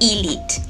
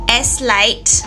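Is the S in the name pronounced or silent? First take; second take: silent; pronounced. First: The S sound is left out of the name. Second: The S sound is pronounced in the name. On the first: The speaker calls it right. "it's actually Eslite. The S is silent" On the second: The speaker calls it wrong. "if you have been pronouncing it as Eslite all this time, no"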